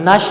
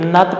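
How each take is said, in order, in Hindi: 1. इस अक्षर का अंत sh ध्वनि से होता है। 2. इस अक्षर का अंत t ध्वनि से होता है। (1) "नश नहीं पढ़ा गया" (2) "यहाँ पे नत पढ़ा गया"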